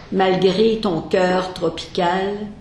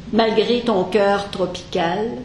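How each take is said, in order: The two takes are said the same way.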